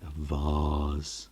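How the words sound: Vase is said the British way, like 'vahz'.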